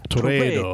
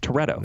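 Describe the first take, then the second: First: The name has an exaggerated Italian mobster flavor. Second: The name is said plainly, without an Italian flavor. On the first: The speaker calls it wrong. "you called him like Toretto. ... Like he's a godfather" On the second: The speaker calls it right. "It's Toretto"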